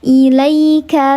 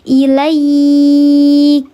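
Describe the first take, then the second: First: The 'ai' sound is short and soft. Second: The 'ai' sound is drawn out long. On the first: The reading continues without stopping. "Kalau harfulin di tengah kalimat namanya harfulin, dilembutkan saja" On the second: The reader stops at this word. "kalau ayah bunda wakafkan di sini, maka dibacanya panjang"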